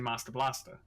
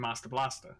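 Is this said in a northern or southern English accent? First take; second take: northern; northern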